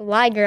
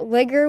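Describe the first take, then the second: First: The first vowel is long, like in 'tiger'. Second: The first vowel is short, like in 'big'. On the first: The speaker calls it right. "no, it's a liger" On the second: The speaker calls it wrong. "I kept pronouncing it ligger"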